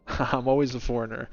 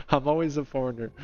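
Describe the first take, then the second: No difference in how they are said.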